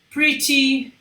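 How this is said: The t is pronounced as a clear t. "O britânico vai falar pretty"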